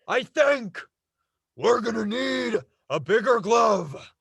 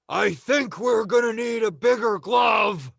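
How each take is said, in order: First: It is said with pauses inside the line. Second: It is said straight through without pauses.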